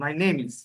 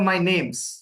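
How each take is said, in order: First: The verb is said as a separate full word. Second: The verb is reduced and joined to 'name'.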